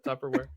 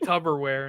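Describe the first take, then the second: First: The middle consonant is a P sound. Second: The middle consonant is a B sound. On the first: The speaker calls it right. "instead of a P" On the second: The speaker calls it wrong. "spelled with a B"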